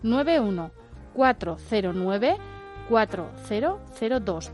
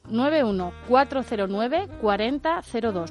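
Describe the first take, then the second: First: The number is said more slowly. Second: The number is said at normal speed.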